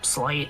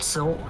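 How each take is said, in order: First: The name has l before a long i. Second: The name has a short i before l. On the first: "Or Slight" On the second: "I think it's supposed to be Silt because it's a mudfish"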